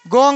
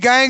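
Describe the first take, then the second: First: The vowel sounds like 'o'. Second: The vowel sounds like 'ae'. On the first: The speaker calls it wrong. "गोंग नहीं" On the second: The speaker calls it right. "गैंग है"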